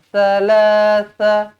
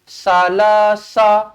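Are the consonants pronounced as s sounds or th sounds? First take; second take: th sounds; s sounds. First: The consonants are soft th sounds with tongue out. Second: The consonants are plain s sounds, tongue kept in. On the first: The speaker calls it right. "ta di sini kena keluarkan lidah lah" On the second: The speaker calls it wrong. "Jadinya jangan kita baca sama je"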